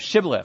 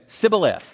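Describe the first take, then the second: First: The word begins with an sh sound. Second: The word begins with an s sound. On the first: The speaker calls it right. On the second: The speaker calls it wrong.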